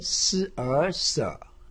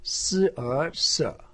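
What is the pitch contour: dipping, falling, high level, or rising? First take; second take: dipping; dipping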